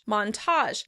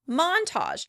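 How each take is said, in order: First: The stress is on the second syllable. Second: The stress is on the first syllable. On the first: "In American English, we tend to pronounce it on the second syllable" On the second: "In British English, this word tends to be pronounced on the first syllable"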